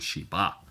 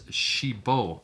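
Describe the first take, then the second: First: The word ends with an 'a' sound. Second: The word ends with an 'o' sound. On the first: The speaker calls it wrong. "I was saying Shiba" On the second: The speaker calls it right. "I actually looked up the pronunciation, and it's Shibo"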